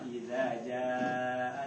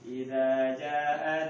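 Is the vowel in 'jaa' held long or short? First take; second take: long; short. First: The vowel in jaa is held long. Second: The vowel in jaa is cut short. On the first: The speaker calls it right. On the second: The speaker calls it wrong.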